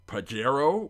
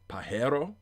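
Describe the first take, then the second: First: The word is pronounced the English way. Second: The word is pronounced the Spanish way.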